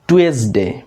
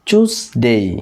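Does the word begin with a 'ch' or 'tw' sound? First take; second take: tw; ch. First: The word begins with a 'tw' sound. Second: The word begins with a 'ch' sound. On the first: The speaker calls it wrong. "এটার উচ্চারণ আমরা সাধারণত করি টুয়েসডে, but it's not টুয়েসডে" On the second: The speaker calls it right. "এটা হবে চুজডে অথবা চিউজডে"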